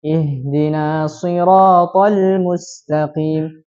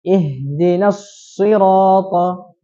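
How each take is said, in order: First: "Ihdina siratal" tanpa tasydid pada shad, lambat; tasydid shad hilang. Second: "Ihdinas sirata" dengan shad bertasydid, lambat; tasydid dihidupkan. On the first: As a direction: contoh salah: "siratal" tanpa tekanan shad. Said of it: "menghilangkan tasydid huruf shad". (bacaan salah tanpa tasydid) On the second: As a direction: contoh benar: nun langsung masuk ke shad. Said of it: "dihidupkan tasydidnya". (bacaan benar dengan tasydid) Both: Shown as a demonstration.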